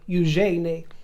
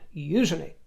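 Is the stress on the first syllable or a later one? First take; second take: later; first. First: The stress is on a later syllable. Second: The stress is on the first syllable. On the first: This is how it is said outside royalty. The speaker calls it wrong. "They don't make a meal of Eugenie or Eugenie" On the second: This is how the family says it. The speaker calls it right. "The stress on the first syllable"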